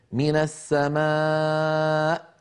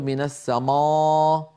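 First: "من السماء" slow, with a long thin aa; light alif. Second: "من السماء" with a dark, backed long aa; wrongly heavy alif. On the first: Teacher models the correct light alif, drawn out. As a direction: draw out a fronted, light aa in "السماء". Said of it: "ولا نقول من السماء". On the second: Teacher warns never to thicken, heavy alif. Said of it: "لا تفخم الألف أبدًا". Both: Shown as a demonstration.

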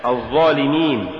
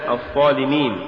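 First: Said in the usual way. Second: "الظالمين" with unvoiced th for the emphatic za; za becomes tha. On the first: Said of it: "استبدال الظاء بالثاء". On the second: Shown as a demonstration. Teacher showing an error, "الظالمين" said with tha for za. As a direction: devoice the first sound after the article in "الظالمين". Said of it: "تقرأ لحنا".

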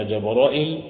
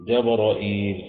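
First: جبرائيل as "Jabra'il", glottal stop and short final vowel; hamza, short ending. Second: جبرائيل as "Jabra'iil", glottal stop then long i; hamza, long ending. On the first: Teacher listing the recited names, جبرائيل with hamza and shortened ending. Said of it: "بالهمزة والقصر". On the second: Teacher giving students the fourth variant, جبرائيل with hamza and long ending. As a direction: lengthen the last vowel of جبرائيل after the hamza. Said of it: "وفي عندنا إيه؟". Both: Shown as a demonstration.

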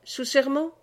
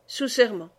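First: SERMENT rising high as a question. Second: SERMENT falling to a settled close; confirming answer. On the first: Aubry demanding an oath from Méloir, «serment» rising questioningly. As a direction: ask for confirmation, lifting the end of «serment». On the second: Méloir swearing to Aubry, «serment» falling in confirmation. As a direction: answer firmly, dropping the end of «serment». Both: A narrator's reading. Demand, then answer in dialogue.

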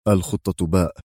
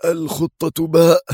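First: Said in the usual way. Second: "الخطة باء" high, drawn out in disbelief; indignant exclamation. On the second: A narrator's reading. Outraged security chief echoes his superior, indignant disbelief. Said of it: "وهو يهتف مستنكرا".

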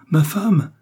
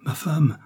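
First: Crie « ma femme » plus haut et plus fort; le second appel éclate; cri de Charles. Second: Appelle sa femme, voix plus haute; appel de Charles. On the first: (cri plus fort sur « femme ») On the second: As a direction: premier appel encore retenu. (appel qui monte, « Ma femme ») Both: Acted. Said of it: "cria Charles".

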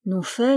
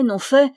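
First: Said in the usual way. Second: «non fait» redit plus haut et plus fort; insisting. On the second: A narrator's reading. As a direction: appuyer le second «fait». Refus répété du pâtour. («fait» lancé plus haut, avec insistance)

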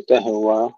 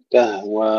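First: تهوى with a little vowel popped after the h; bounced ha, wrong. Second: تهوى with a flowing airy h, no bounce; breathed soft ha. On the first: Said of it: "وليس فيها قلقلة". (تهوى بقلقلة الهاء خطأً) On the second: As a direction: let breath run through the ه of تهوى. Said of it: "فيها الهمس وفيها الرخاوة". (تهوى بهاء مهموسة رخوة) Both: Shown as a demonstration.

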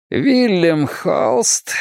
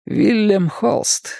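First: Very slow, drawn-out, higher-pitched name; deliberate, stretched-out call; projected voice. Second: Said in the usual way. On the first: A narrator's reading. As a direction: make the name carry up to the roof. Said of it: "Каз говорил громко, чтобы его голос донёсся до крыши". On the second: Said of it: "поинтересовался Каз".

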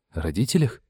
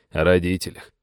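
First: "родителях" rising into a question; checking question. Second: Said in the usual way. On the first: A narrator's reading. Young man checks what he may ask, questioning. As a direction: lift "родителях" at the end, asking to make sure. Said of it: "уточнил Сэм".

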